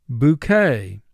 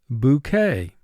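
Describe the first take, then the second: Both takes have the same delivery.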